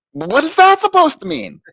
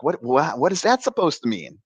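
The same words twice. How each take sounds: First: Very high-pitched disbelief; incredulous retort. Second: Mildly acted, stammering disbelief; baffled retort. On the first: Retold or imitated. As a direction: squeak it out in exaggerated bafflement. Acting out his escalating disbelief. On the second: Acting out his baffled first reaction.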